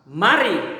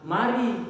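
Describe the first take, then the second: First: It is said expressively, with lively intonation. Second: It is said flatly, without lively intonation. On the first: The speaker calls it right. "Coba kamu katakan, mari, ikuti" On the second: The speaker calls it wrong. "Tidak seperti itu"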